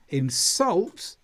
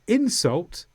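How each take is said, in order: First: The stress is on the second syllable. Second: The stress is on the first syllable. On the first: It names the act of upsetting someone. "for the activity of doing it" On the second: It names the actual upsetting words. "for the noun"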